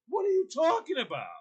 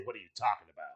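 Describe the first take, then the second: First: High-pitched mock exasperation; exasperated retold protest; getting mad. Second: Low, soft mock comeback; understated retold challenge; muted retort. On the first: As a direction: act out mounting frustration, pitch jumping up. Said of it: "I'm getting, I'm getting mad". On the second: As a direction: toss the question off under your breath. Retold argument, low weary take.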